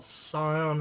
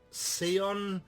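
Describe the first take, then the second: First: [name] said "SIGH-on"; alternative pronunciation. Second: [name] said "SEE-on"; first pronunciation variant. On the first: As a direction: say [name] with a long "eye" in the first syllable. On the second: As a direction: say [name] with an "ee" in the first syllable, drawn out. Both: Shown as a demonstration. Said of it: "however you wanna pronounce it".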